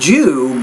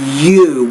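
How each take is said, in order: First: The word begins with a j sound. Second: The word begins with a y sound. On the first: The speaker calls it wrong. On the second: The speaker calls it right. "but you"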